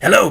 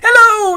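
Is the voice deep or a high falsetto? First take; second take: deep; falsetto. First: It is said in a low, deep voice. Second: It is said in a high falsetto voice. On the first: "it goes this deep" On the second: "go way up there"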